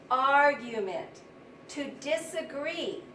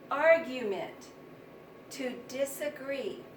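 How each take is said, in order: Both takes have the same delivery.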